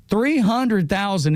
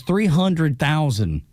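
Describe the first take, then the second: First: THREE HUNDRED THOUSAND drawn out slowly and higher; emphatic repeat. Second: Said in the usual way. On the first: Real, not acted.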